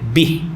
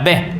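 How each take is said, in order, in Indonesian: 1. Vokalnya adalah bunyi 'i' tertutup. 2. Vokalnya adalah bunyi 'e' terbuka. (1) "bih kan" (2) "bukan beh"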